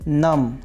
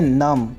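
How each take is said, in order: Both takes have the same delivery.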